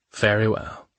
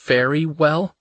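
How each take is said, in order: First: A lightly cryptic, knowing "Very well"; mystifying. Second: "Very well?" lifted high into a questioning rise on "well"; puzzled echo. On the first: Man answers her worry with a cryptic, lightly voiced "Very well". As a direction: keep "Very well" mysterious, level and even. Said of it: "he said mystifyingly". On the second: Woman echoes his odd answer in a high puzzled question. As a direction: echo "Very well?" back, baffled, pitch climbing. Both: Acted.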